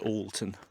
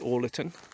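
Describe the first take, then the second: First: The name is said with two syllables. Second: The name is said with three syllables. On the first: The speaker calls it right. "usually locally it's pronounced Alton" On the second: The speaker calls it wrong. "My first guess was Orlerton, and I was politely corrected"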